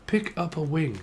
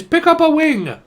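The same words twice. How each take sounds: First: Said in the usual way. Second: Mock Chinese accent. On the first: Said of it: "I mean, is it chicken?". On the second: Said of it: "what the fuck is that accent?".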